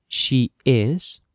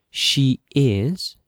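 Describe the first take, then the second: No difference in how they are said.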